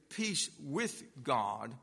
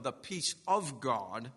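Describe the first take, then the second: First: Slow "peace with God", "with" set apart; stress on "with". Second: "of" picked out in "peace of God"; stress on "of". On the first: Preacher pointing out the exact expression, stress on "with". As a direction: lean deliberately on the word "with". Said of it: "The expression is specifically here". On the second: Preacher contrasting two scripture expressions, stress on "of". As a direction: lean on the word "of". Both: Real, not acted.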